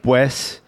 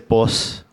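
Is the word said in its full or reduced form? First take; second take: full; reduced. First: The word is said in its full form. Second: The word is said in a reduced form. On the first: "words like pues" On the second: "I say pos"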